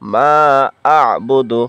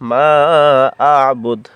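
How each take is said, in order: First: The final word ends with a short vowel. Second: The final word ends on a bare consonant. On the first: The reading continues without stopping. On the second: The reader stops at this word.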